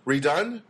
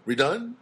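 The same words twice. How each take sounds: First: Redone said with a rising tune like a question; redone? asked, not stated; questioning rise. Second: Redone? with a clear upward question lift; Redone? tossed back, pitch rising at the end; mock question. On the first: Real, not acted. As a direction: let redone lift up at the end as if unsure. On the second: Shown as a demonstration. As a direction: repeat redone as a doubtful question. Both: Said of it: "why am I saying it like a cre-, question?".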